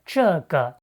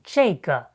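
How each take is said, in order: First: It is said with the standard pronunciation. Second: It is said with the northern colloquial pronunciation.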